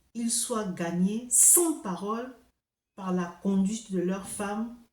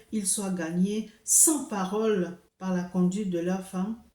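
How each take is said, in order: The two takes are said the same way.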